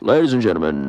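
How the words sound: It is said in a put-on airline pilot voice.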